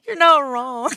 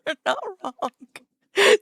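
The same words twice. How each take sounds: First: Laughing. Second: Slow, high, crying with laughter; laughing hard. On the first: Laughing hard at joke. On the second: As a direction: squeeze the words out through laughter. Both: Real, not acted.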